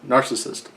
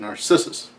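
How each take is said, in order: First: The word has its usual, standard pronunciation. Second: The word has an odd, nonstandard pronunciation. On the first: "with the more conventional pr- pronunciation" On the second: "He's got this weird pronunciation of it"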